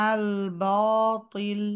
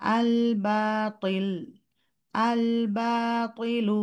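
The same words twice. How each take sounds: First: Slow heavy বাতিল with a dark ba; wrong heavy ba. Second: Slow আল বাতিল with a clear light ba; correct light ba. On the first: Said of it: "বা sound করে ব". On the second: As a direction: finish ba fully, then go to ta. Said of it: "আল বা complete করবেন, তারপর বলবেন". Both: Shown as a demonstration.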